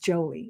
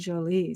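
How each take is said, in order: First: The name is said with an American pronunciation. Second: The name is said with a French pronunciation. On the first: This is the name's real original form. "It's just a good old American Jolie" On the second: Someone thought this form sounded better. "They said it in a French way"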